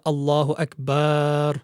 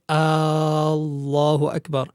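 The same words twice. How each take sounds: First: The vowel after the b is stretched long. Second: The opening vowel of Allah is stretched long. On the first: "there should not be an extension of the ba of the word akbar" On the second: "one should not extend the hamza of al-jalala"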